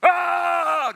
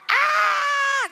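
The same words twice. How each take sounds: First: Loud open battle cry; shout. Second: Much higher, loud screaming yell; shrill shriek. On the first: Preacher showing the kids the Israelites' shout, loud. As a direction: shout it like a crowd. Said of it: "Ganun kayang sigaw?". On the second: Preacher trying a higher second shout for the kids, shrieking. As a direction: scream it way up high. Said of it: "Ganyan ba?". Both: Shown as a demonstration.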